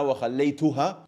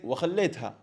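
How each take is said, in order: First: Every short vowel is fully pronounced. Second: A short vowel is rushed and reduced. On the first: "He didn't say" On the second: "but he said وخليتها"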